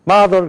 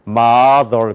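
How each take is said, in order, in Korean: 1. 한국 억양으로 한 거예요. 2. 미국 억양으로 한 거예요. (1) "한국 사람들 어떻게 듣냐? mother 그렇게 듣는단 말이에요" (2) "미국 사람들 우리에게 mother 그래요"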